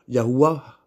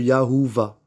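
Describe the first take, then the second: First: The middle consonant is said as a w sound. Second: The middle consonant is said as a v sound. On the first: The speaker calls it right. "Le Vav, parfois, il est waouh ... ça s'interpréterait plutôt comme Yahuwah" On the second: The speaker calls it wrong. "plutôt que Yahuva"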